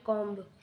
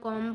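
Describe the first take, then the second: First: The word ends with a b sound. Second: The word ends with an m sound. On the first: The speaker calls it wrong. "ना कि कॉम्ब" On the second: The speaker calls it right. "हम कॉम बोलते हैं"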